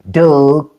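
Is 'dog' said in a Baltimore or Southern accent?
Baltimore. It is said with a Baltimore accent. "but that's Baltimore"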